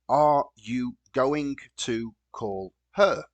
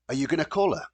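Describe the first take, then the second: First: Each word is said fully and separately. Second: Words are reduced and linked, like 'a y gonna'. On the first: "if we're going to write this, we write very simply" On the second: "when we want to pronounce this naturally in connected speech"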